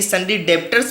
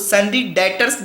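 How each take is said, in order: First: The b in debtors is pronounced. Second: The b in debtors is silent. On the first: The speaker calls it wrong. "आप यदि sundry डेब्टर्स बोलते हैं तो वो गलत है" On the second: The speaker calls it right. "यहाँ पे बी वर्ड साइलेंट होता है"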